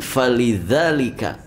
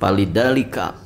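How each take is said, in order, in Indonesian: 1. Bunyi pertama adalah f. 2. Bunyi pertama adalah p. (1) "Harusnya kan falidalika" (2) "Fa itu jadinya P gitu ya. Palidalika"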